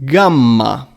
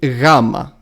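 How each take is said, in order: First: It is said in the ancient Greek way. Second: It is said in the modern Greek way.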